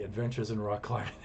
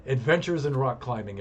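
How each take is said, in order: First: Softer, chuckling repeat of the title; laughing. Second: Announcing title. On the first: Signing off the story to viewers, softer through a laugh. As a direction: laugh it out as an afterthought. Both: Real, not acted.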